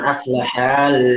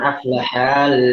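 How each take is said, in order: First: The vowel after the h is lengthened. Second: The vowel after the h is lengthened.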